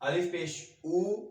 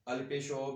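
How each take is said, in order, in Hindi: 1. अंतिम स्वर 'u' जैसा सुनाई देता है। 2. अंतिम स्वर 'o' जैसा सुनाई देता है। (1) "अरेबिक में ये आवाज ऐसी नहीं है" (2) "उर्दू में हम आमतौर पर"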